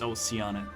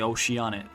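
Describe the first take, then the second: First: The name begins like the words oh, sea. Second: The name begins like the word ocean. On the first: The speaker calls it right. "but it's Oceanet. Oh, sea!" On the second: The speaker calls it wrong. "the way we thought of it is ocean, then that's why Oceanet"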